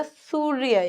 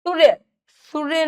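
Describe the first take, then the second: First: सूर्य with a held oo; long first vowel in सूर्य. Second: सूर्य with a short u; quick first vowel in सूर्य; short-u error. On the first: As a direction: stretch सूर्य as "sooo-rya". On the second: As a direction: say सूर्य wrongly as "surya". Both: Shown as a demonstration. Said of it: "बड़े ऊ की मात्रा".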